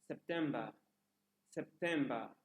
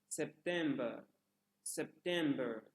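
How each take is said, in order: No difference in how they are said.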